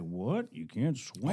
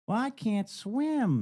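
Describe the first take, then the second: First: Lightly voiced movie cowboy, quieter; a hint of the big star questioning a kid; John Wayne. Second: Put-on high, slow little-kid voice. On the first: Film star answering the kid who can't swim, lightly imitated. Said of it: "the John Wayne video". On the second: Little kid telling John Wayne he can't swim, imitated child voice. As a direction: draw it out high like a helpless child. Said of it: "when the little kid".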